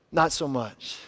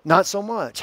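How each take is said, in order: First: Softer aside. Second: Said in the usual way. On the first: Shown as a demonstration. Preacher's soft, wry aside to the congregation. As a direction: drop it to a soft, dry "not so much".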